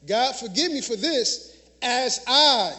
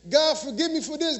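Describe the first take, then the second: First: Slow "God, forgive me for this as I", leaning on "I"; slow, deliberate prayer. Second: A quick, slightly higher, routine plea to God; rattled-off prayer. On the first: Preacher showing the right way to pray, slow and deliberate. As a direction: draw out "as I" so the condition lands. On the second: Preacher mocking a shallow prayer, rote and quick. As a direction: toss off "God, forgive me for this" as a rote list item. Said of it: "And then we stop there. No". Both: Shown as a demonstration.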